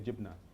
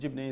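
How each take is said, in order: First: The word ends in an a vowel. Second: The word ends in an e vowel. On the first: This is how it is said in Gaza. "In Gaza we say jibna" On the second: This is how it is said in the West Bank. "jibne is West Bank pronunciation"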